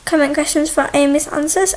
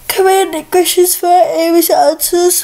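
First: The phrase is spoken in a normal voice. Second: The phrase is spoken through a yawn.

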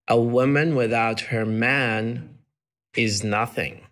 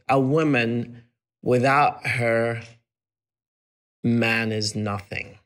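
First: There is a pause just after 'man'. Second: There is a pause just before 'man'. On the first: A woman is worthless without a man. "Men, on the other hand, punctuated as" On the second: A man is worthless without a woman. "she put the man is nothing after the comma"

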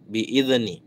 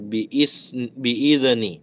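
First: The first syllable is smooth with no echo. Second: The first syllable ends with a bouncing echo. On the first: The speaker calls it right. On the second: The speaker calls it wrong.

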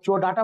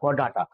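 First: The word starts with a 'ch' sound. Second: The word starts with a 'k' sound. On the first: The speaker calls it wrong. "चोडाटा मत बोलिएगा" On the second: The speaker calls it right. "Phylum का नाम है कॉर्डाटा"

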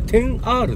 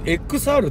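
First: The X is read as the number ten. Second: The X is read as the letter X. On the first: The speaker calls it right. "あれ10R ですよね" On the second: The speaker calls it wrong. "思わずXR って言いたくなっちゃうんですけど"

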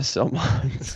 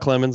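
First: The name starts with a plain S sound. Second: The name starts with a KL sound. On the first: The speaker calls it wrong. "it's C-L, so it's definitely not Sel" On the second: The speaker calls it right. "it's pronounced Clemmons"

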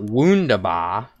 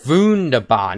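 First: The word begins with a W sound. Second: The word begins with a V sound. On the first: The speaker calls it wrong. "not Wunderbar" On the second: The speaker calls it right. "the W is pronounced like a V"

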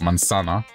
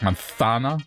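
First: The z is said as a plain s sound. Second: The z is said as a strong th sound. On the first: "apple will say manzana or manzana" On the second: "other countries will emphasize the th more, so it's like manzana. I overdid it on purpose there"

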